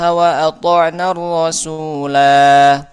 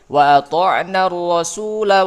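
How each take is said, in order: First: The final vowel is held long. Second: The final vowel is cut short. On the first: The reciter stops after this word. "Kalau mau berhenti" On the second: The reciter joins it to the next word. "Kalau mau lanjut, ... tidak dibaca panjang"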